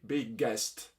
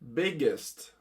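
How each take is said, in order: First: The ending is said like 'est' in 'guest'. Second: The ending is said with a short 'ist' sound. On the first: The speaker calls it wrong. "in Italy, where I live, uh, we usually say big guest" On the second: The speaker calls it right. "the sound is more similar to ist"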